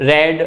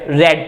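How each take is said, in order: Both takes have the same delivery.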